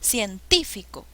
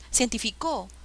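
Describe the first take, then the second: First: The stress is on the second syllable. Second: The stress is on the fourth syllable. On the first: The speaker calls it right. "suena mejor" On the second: The speaker calls it wrong.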